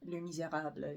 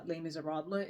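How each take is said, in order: First: Les Misérables in a French accent; rough stab at a French accent. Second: Les Miserables in an English accent; English pronunciation of the French title. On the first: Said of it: "say it with, uh, a French accent". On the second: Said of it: "say it with the English accent". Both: Shown as a demonstration.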